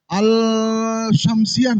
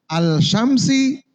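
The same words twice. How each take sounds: First: Al-Syamsiah drawn out slowly with a wrong iah ending; mock the student's slip, stretching Al-Syamsiah; imitating a mistake. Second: Al-Syamsi said slowly and clearly, ending on plain si; correct model. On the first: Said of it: "tadi saya dengar begitu". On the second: Shown as a demonstration. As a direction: model Al-Syamsi carefully for the class. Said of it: "kasih baris pada hamzah itu".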